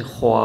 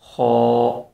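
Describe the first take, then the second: First: خوا starting rounded and thick, opening thin at the end; wrong Kho. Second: خو held thick, mouth steady from start to end; correct Kho. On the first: Teacher imitates the common wrong خوا. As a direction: round the lips on خوا then open them so it thins out. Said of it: "شروع میں منہ گول کرتے ہیں اور آخر میں جا کے منہ کھول دیتے ہیں". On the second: Teacher shows correct خو, louder and held. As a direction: say خو with one fixed thick mouth shape, no change. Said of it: "خا بھی نہیں پڑھنا، بلکہ". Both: Shown as a demonstration.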